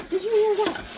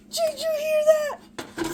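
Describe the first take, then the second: First: High, louder eager question; excited. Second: Drawn-out high squeal; excited. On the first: Asking viewers after the cake drops, excitedly. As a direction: ask it breathless with delight. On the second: Repeating to viewers, slower and higher with glee. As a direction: stretch it high with delight. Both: Real, not acted. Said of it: "I got excited".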